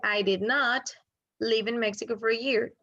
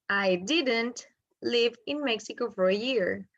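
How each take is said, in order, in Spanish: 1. 'Did not' se dice como dos palabras completas. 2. 'Did not' se contrae en una sola palabra, 'didn't'. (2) "O puedo unir did not y dejarlo en didn't"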